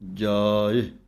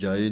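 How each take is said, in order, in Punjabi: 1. ਆਖ਼ਰੀ ਸੁਰ ਲੰਮਾ ਹੈ। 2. ਆਖ਼ਰੀ ਸੁਰ ਛੋਟਾ ਹੈ। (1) "ਜਾਏ ਲੰਮਾ ਕਰਕੇ ਬੋਲਣਾ ਹੈ" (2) "ਇਹਨੂੰ ਜਾਏ ਨਹੀਂ ਕਹਿ ਦੇਣਾ"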